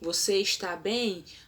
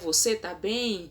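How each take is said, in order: First: The verb is said in full, with every syllable. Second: The verb is shortened, losing its first syllable.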